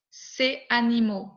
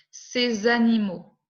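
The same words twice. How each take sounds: First: "ces animaux" without the Z sound; no liaison. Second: "Ces animaux" with a clear Z linking; with liaison. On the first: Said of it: "Je ne prononce pas". (« ces animaux » sans liaison) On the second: (« Ces animaux » avec liaison en Z) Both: Shown as a demonstration.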